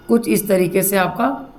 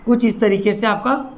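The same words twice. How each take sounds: The two takes are said the same way.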